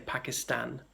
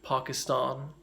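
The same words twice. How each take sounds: First: It has a northern English vowel. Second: It has a mildly posh vowel.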